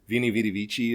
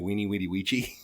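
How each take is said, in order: First: The words begin with a V sound. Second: The words begin with a W sound.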